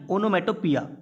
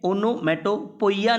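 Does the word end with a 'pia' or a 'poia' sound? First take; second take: pia; poia. First: The word ends with a 'pia' sound. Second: The word ends with a 'poia' sound. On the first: The speaker calls it right. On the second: The speaker calls it wrong. "ओनोमेटोपोइया नहीं पढ़ेंगे इसे, पोइया नहीं"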